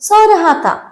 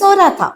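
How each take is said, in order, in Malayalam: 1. raha എന്ന വാക്ക് പൂർണ്ണമായി പറയുന്നു. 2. raha എന്ന വാക്ക് ചുരുക്കിയും മങ്ങിയും പറയുന്നു.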